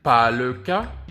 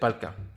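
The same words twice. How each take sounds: First: Every word is pronounced fully and separately. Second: The words run together, with le reduced. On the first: "when I said pas le cas" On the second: "I said pas le cas"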